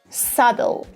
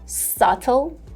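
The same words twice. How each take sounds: First: American accent with a soft D-like flap. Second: British accent with a crisp T sound. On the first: "in the American pronunciation" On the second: "in the British version"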